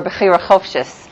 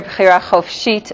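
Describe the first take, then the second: First: "bechira chofshis" with weak final "uh" and CHOF-shis ending in S; yeshivish pronunciation. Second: "bechira chofshit" with open final "ah" and chof-SHEET ending in T; Israeli pronunciation. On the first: Teacher letting class hear both ways, yeshivish pronunciation. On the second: Teacher letting class hear both ways, Israeli pronunciation. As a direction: say "bechira chofshit" the Israeli way, stressing the last syllables. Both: Shown as a demonstration. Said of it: "depending on how you pronounce it".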